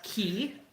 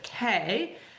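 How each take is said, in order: First: The word is said with an ee vowel. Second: The word is said with an ay vowel. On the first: The speaker calls it right. "C A Y is also pronounced Key um, by locals" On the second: The speaker calls it wrong. "everyone pronounces it K, which is not the proper pronunciation"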